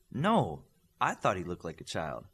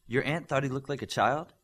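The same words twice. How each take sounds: First: "I" stressed, then falling away lower. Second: Rising, higher question leaning on "thought"; sceptical question. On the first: Teacher correcting whose impression it was, firm stress on "I". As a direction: correct them by leaning on "I", falling to the end. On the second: Student querying the teacher's story about her aunt, sceptical rising question. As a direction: query it doubtfully, voice lifting to the end on "child". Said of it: "asked with one eyebrow cocked". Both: A narrator's reading.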